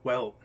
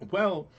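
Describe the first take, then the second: First: The Mystic lightly voiced, close to own voice; false start at the Mystic's voice; wrong Mystic voice. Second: Higher, louder Mystic voice; corrected Mystic voice. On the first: Game master misses the Mystic's voice, barely changed from own. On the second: Acted. Game master answers as the Mystic, in a higher voice. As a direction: restart as the Mystic, pitched up. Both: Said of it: "that's the wrong voice".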